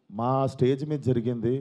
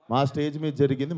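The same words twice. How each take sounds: First: Slow, with మీద pressed hard; stress on stage. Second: మా punched, rising at the end; stress on our. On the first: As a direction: lean on మీద and drag the line out. (మీద పై ఒత్తిడి, నెమ్మదిగా) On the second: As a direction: hit the word మా to claim it. (మా పై ఒత్తిడి, చివర్లో పైకి) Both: Real, not acted.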